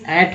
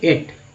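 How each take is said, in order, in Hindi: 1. स्वर एक छोटी, सपाट 'a' ध्वनि है। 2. स्वर एक लंबी 'ay' ध्वनि है। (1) "ए ए टी मीन्स एट होता है" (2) "ना कि एट"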